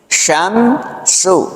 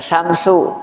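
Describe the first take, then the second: First: The word begins with an sh sound. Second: The word begins with a plain s sound. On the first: The speaker calls it right. "shin yang pertama shin besar, yang kedua kecil" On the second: The speaker calls it wrong. "tidak samsu"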